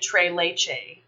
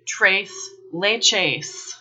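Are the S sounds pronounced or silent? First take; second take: silent; pronounced. First: The final S sounds are left silent. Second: The final S sounds are clearly pronounced. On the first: The name is treated as if it were French. The speaker calls it wrong. "treating the name like it's French" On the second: The name is treated as Spanish. The speaker calls it right. "The S's are pronounced"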